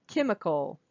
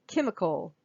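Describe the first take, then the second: Both takes have the same delivery.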